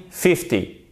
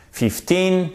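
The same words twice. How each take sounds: First: "fifty" with FIF strong, short falling end; stress on FIF. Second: Put-on "Fifteen" with a high, held TEEN; stress on TEEN. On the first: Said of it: "elle est sur la première syllabe". (accent sur le début de « fifty ») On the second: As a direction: hold the second syllable of "Fifteen" up high. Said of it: "c'est bien différent de quinze". (accent haut et long sur la fin de « Fifteen ») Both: Shown as a demonstration.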